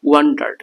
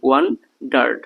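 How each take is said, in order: First: Said in the usual way. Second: "ওয়ান্ডার্ড" drawn out as ওয়ান, then ডার্ড; split into syllables. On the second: Shown as a demonstration. Teacher breaking the word down for learners, split into syllables. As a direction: break "ওয়ান্ডার্ড" into two separate beats. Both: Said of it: "সিলেবলের ভিত্তিতে ভাঙতে পারি".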